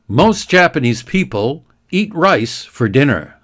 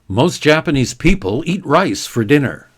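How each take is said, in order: First: The sentence is read at a slow pace. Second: The sentence is read at a quick pace. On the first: "I'll read it slowly at first" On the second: "let's do it more quickly"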